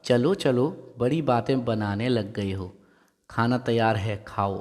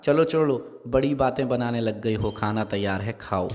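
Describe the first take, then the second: First: A hint of put-on scolding, laugh held back; mildly mock-stern shooing, barely raised; fake anger. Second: Mock anger. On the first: Mother hiding a laugh, shoos kids to eat, mild mock anger. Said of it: "हंसी दबाकर बनावटी क्रोध से कहा". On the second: Mother pretends anger to hush kids' chatter, mock stern. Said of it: "चेहरे पर क्रोध ले आई ... डराने वाली स्थिति". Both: A narrator's reading.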